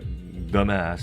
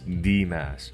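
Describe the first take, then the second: First: The first word sounds like 'the'. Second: The first word sounds like the letter 'dee'. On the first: The speaker calls it wrong. "don't pronounce it like the mass" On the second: The speaker calls it right. "it's d mass"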